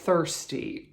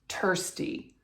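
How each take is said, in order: First: The word begins with a soft th sound. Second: The word begins with a hard t sound. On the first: The speaker calls it right. "as in thirsty" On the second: The speaker calls it wrong. "it would come out"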